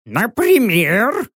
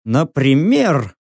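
First: НАПРИМЕР high and stretched, rising to a question; drawn-out high query; questioning owl. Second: Said in the usual way. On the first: A narrator's reading. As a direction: ask НАПРИМЕР as a suspicious owl. Owl questions the narrator's demand.

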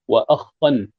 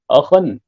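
First: وأخا with a long double خ, wa-akhkhan; doubled kha. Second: Said in the usual way. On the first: Shown as a demonstration. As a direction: geminate the kh in وأخا. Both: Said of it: "بتشديد".

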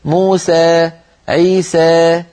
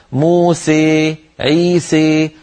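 First: Slow "موسى، عيسى" ending in open eh; final alif of "موسى" and "عيسى" tilted slightly toward ī; slight imāla. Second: Slow "موسى، عيسى" ending in closed ay-like ē; final alif halfway to ī in "موسى" and "عيسى"; full imāla. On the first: Teacher showing light blend, "موسى، عيسى" ending in eh. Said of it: "تخلط صوت الألف بشيء من الياء قليلًا". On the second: Teacher showing full blend, "موسى، عيسى" ending in closed ē. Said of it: "تخلط الألف بالياء خلطا كاملا". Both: Shown as a demonstration.

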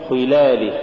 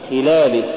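First: خلاله with khaa too thick, darkening the i; over-heavy khaa. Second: خلاله with a reduced-weight khaa and clean i; lighter khaa. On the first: Tajweed teacher showing the mistaken reading, over-heavy khaa. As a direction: thicken the first syllable of خلاله. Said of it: "تقرأ لحنا". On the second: Tajweed teacher giving the example, lighter khaa. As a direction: keep the i of خلاله clear. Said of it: "ونحو". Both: Shown as a demonstration.

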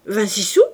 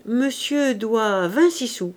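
First: Louder, startled rising question; indignant surprise, lifting at the end; exclaimed. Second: Measured, drawn-out statement; slow pronouncement, settling at the end; slow announcement. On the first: A narrator's reading. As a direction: cry out in disbelief. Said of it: "s'écria la femme". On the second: Acted. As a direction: spell out the bill deliberately. Husband solemnly announces the real bill.

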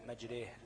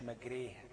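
First: مجريها with the a leaning toward ee, the imala; the teacher shows the right مجريها with imala. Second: مجريها said with a plain open a, not tilted toward ya; the teacher shows the wrong مجريها to the class, with a plain open a. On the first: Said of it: "بالإمالة". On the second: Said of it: "باليه، لا". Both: Shown as a demonstration.

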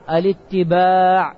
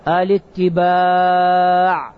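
First: الاتباع repeated slowly but shorter, a firm confirming fall; الاتباع said once more to seal the answer. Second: الاتباع stretched very slowly, lower and weighty; الاتباع held long like a teacher revealing the answer; drawn-out answer. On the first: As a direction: restate الاتباع briskly with a settling fall. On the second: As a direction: linger on every syllable of الاتباع. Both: Shown as a demonstration. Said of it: "الشرط الثاني إيش هو".

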